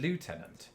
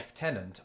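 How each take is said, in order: First: It is pronounced a non-British way. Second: It is pronounced the British way. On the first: "I've always said" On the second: "pronouncing this the British way of"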